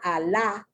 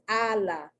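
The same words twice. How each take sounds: First: The stress is on the second syllable. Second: The stress is on the first syllable. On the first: The speaker calls it wrong. "It's not Allah" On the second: The speaker calls it right. "The accent is on the first A"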